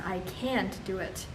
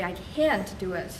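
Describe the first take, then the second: First: "I can't do it" with "can't" clearly punched; stress on can't. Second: Said in the usual way. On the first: Shown as a demonstration. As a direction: lean hard on "can't". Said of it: "I need to stress". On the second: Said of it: "And when I say".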